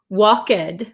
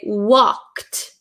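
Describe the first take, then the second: First: The L is sounded and the ending is not T. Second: The L is silent and the ending sounds like T. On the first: The speaker calls it wrong. "So we don't say walk, walked, right?" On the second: The speaker calls it right. "the L is silent. We do not say the L"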